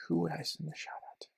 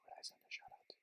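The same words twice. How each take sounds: First: Said in the usual way. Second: Breathless whisper to himself. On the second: Real, not acted. Vlogger pondering whom to thank, whispered to himself. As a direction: muse it under the breath.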